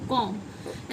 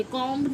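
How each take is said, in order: First: कॉम्ब low and soft, ending on m; correct silent b. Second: कॉम्ब with an audible b; mispronounced comb. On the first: Teacher correcting the error, b silent. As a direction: drop low and close कॉम्ब on m. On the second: Teacher repeating what not to say, b sounded. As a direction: let कॉम्ब end on b. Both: Shown as a demonstration. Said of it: "कॉम्ब नहीं".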